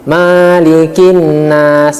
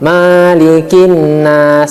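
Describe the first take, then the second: First: The 'ma' vowel is drawn out long. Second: The same.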